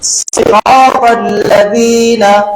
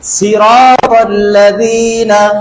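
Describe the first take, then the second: First: The first sound is a heavy, emphatic s. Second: The first sound is a plain, light s. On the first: The speaker calls it right. "তারপরে আসলটা স দিয়ে বলবো" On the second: The speaker calls it wrong. "আমি প্রথমে সিন দিয়ে বলবো"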